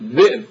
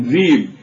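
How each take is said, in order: First: A glottal stop breaks the middle vowel. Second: A smooth long vowel, with no glottal stop. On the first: This is the Tamimi way of saying it. "التميميون ينبرون، يهمزون يعني، فيقولون بئر، ذئب" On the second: This is the Hijazi way of saying it. "الحجازيون يلينون فيقولون ذيب"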